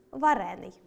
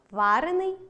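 First: Варений with stress on РЕ, falling; stress on second syllable. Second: Варений with stress on ВА, rising; stress on first syllable. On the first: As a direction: lean on РЕ in варений and drop. (наголос на другому складі: варЕний) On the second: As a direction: lean on ВА and lift варений at the end. (наголос на першому складі: вАрений) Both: Shown as a demonstration. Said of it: "подовження не відбувається в дієприкметниках".

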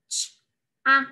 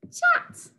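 First: "ch-a-t" sound by sound; "ch-a-t" segmented with gaps, as in phonics; sound talk. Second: Said in the usual way. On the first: Shown as a demonstration. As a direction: separate the ch, short a and t of "ch-a-t". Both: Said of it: "sound talk the words".

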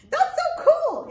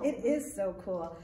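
First: High, loud little puppet marvelling; squeaky puppet voice. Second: Said in the usual way. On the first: Acted. Puppet Arturo marvels at reading to the kids, high squeaky voice.

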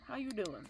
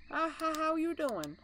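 First: Said in the usual way. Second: Higher, sing-song greeting; high playful voice. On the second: Pretend. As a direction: greet him in a cutesy high voice. Greeting the animatronic in a voice.

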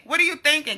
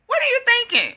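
First: Said in the usual way. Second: Higher first take. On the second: Real, not acted. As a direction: throw the question up high.

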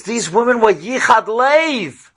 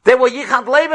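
First: Slow, weighty, each word laid down; slow solemn stress on Yichad Lev; slow emphasis. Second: Preacher's rising cry on Lev; raised emphasis. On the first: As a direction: let it sink in, slowly. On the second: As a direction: lift it up with fervour. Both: Shown as a demonstration.

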